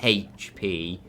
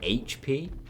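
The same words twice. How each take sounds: First: The letter H starts with an h sound. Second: The letter H starts without an h sound. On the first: "I say H P" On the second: "What do you say"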